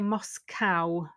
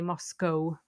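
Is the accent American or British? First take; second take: American; British. First: It is said in an American accent. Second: It is said in a British accent. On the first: "I think Americans say Moscow as well, because the spelling is COW" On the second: "the UK, they say Moscow"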